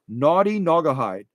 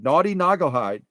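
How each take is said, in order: First: The phrase is said slowly. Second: The phrase is said quickly.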